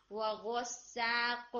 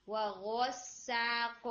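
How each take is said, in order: First: وغساق slowly, the ghain opened to gha. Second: وغساق very slow with a proper ghain; correct ghain. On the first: Teacher shows the student's gha in وغساق. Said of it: "غا کی sound دے رہا تھا". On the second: Teacher models the right ghain in وغساق. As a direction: recite وغساق with a clean, full ghain. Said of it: "جو غین ہے". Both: Shown as a demonstration.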